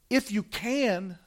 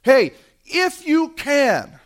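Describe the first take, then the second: First: Softer and slow, calmly reassuring; gentle encouragement. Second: High, loud and slow, a father at the end of his rope; desperate plea. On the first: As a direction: hand it back gently, like an invitation. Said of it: "This is the encouragement of faith". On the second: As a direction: beg it out, slow and strained. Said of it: "he comes with desperation". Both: Retold or imitated.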